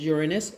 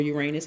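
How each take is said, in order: First: "Uranus" stressed on the first syllable, YOOR-uh-nus; first pronunciation. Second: "Uranus" stressed on the second syllable, yoo-RAY-nus; alternative pronunciation. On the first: Tarot reader naming the retrograde planet, "Uranus" as YOOR-uh-nus. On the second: Tarot reader offering another option, "Uranus" as yoo-RAY-nus. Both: Shown as a demonstration. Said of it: "however you wanna pronounce it".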